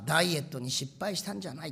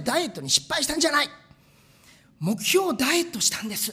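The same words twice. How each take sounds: First: Said in the usual way. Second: Mock proud quote. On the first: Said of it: "ある方が言ってた". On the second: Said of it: "って言ってたんですけど".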